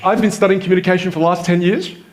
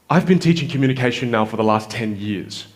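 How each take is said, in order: First: The sentence ends on a high pitch. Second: The sentence ends on a lower pitch.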